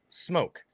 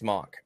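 First: The vowel is long, like in 'smoke'. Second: The vowel is short, like in 'smock'. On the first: The speaker calls it right. "I say that's pronounced smoke" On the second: The speaker calls it wrong. "you're saying it wrong, Toby. It's pronounced smock"

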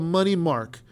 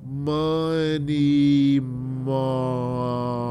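First: It is said at normal speed. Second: It is said slowly.

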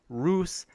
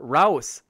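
First: The name does not rhyme with house. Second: The name rhymes with house.

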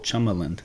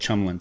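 First: The second syllable is pronounced clearly and distinctly. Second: The second syllable is slurred into the others. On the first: The speaker calls it right. "you really enunciate that second syllable" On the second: The speaker calls it wrong. "I kind of run it together like"

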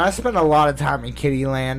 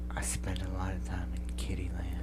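First: It is spoken in a normal full voice. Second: It is spoken in a whisper.

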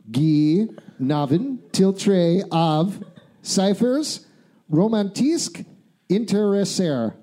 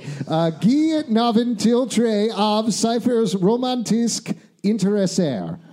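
First: The sentence is read slowly and deliberately. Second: The sentence is read at a normal pace.

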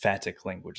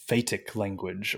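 First: Phatic is said like the end of emphatic. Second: Phatic is not said like the end of emphatic.

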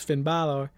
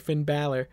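First: Balor is said in its original, non-American way. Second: Balor is said in the usual American way. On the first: "I tried to pronounce it there the correct way" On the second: "let me pronounce it the normal American way"

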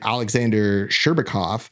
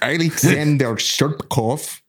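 First: It is said in his ordinary accent. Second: It is said in a put-on Russian accent.

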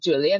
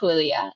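First: The name is pronounced the English way. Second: The name is pronounced the Spanish way. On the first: This is the name as locals commonly say it. "a lot of people in Canada and here in England just call me Julia" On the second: This is the original name. "That's my Spanish name"

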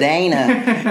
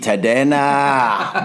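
First: The name is said with an American pronunciation. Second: The name is said with its original pronunciation. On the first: The speaker calls it wrong. "I could have done that because I'm from Chicago" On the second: The speaker calls it right. "I love that you said it correctly too"

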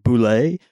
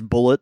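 First: The name is not said like 'bullet'. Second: The name is said like 'bullet'. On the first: The speaker calls it wrong. "a misconception that you might be, you're supposed to pronounce it as like boulet" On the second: The speaker calls it right. "The official pronunciation of this is Bullet"

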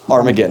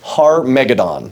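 First: The word is said quickly and run together. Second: The word is said slowly and carefully. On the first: "Say it fast" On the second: "listen carefully"

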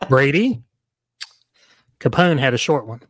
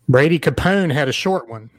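First: There is a long pause after Brady. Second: There is barely any pause after Brady. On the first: Brady is addressed and Capone is the clue's subject. The speaker calls it right. "I should have made my pause more pregnant" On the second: Brady Capone sounds like one full name. The speaker calls it wrong. "I didn't hear the short pause there"

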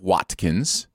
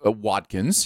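First: The t sound is crisp. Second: The t sound is softened. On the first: This is how the name is said outside America. "instead of Watkins" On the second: This is how Americans say it. "it is very much an American thing to soften those sharp letters"

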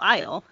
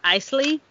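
First: The word is said with one syllable. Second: The word is said with two syllables. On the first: The speaker calls it right. "I think it's Belle Isle" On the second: The speaker calls it wrong. "I was saying it's Isley for, three quarters of the book"

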